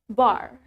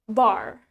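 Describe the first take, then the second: First: It is said in an American accent. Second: It is said in an American accent.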